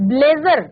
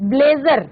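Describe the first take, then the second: The two takes are said the same way.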